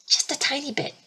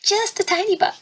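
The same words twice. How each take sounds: First: Said in the usual way. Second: "Just a tiny bit" in a much higher, squeaky joke voice; joking squeaky voice. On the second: Retold or imitated. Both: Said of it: "And then it's a joke. He's like".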